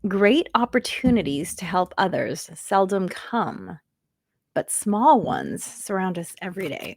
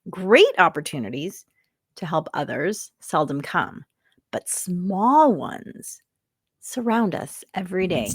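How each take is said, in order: First: It is read plainly, without special emphasis. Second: It is read with strong, deliberate emphasis.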